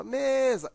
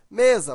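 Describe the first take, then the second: First: "mesa" called out, first syllable ME held long and higher; calling the word out. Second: Said in the usual way. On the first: Shown as a demonstration. Teacher showing pupils the stressed syllable, "mesa" called out with long ME. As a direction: stretch the ME of "mesa" as if calling someone. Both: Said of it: "você chama a palavra mesa".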